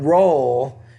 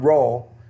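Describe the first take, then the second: First: The vowel is drawn out and long. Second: The vowel is short and clipped. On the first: The speaker calls it right. "but roll, you need to make that vowel sound longer" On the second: The speaker calls it wrong. "not roll"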